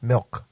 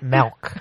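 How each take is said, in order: First: The vowel sounds like 'ih', as in 'bit'. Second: The vowel sounds like 'eh', as in 'bet'. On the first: The speaker calls it right. "and it's with an I" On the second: The speaker calls it wrong. "Not milk, with an E"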